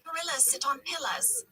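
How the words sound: It is said in a British accent.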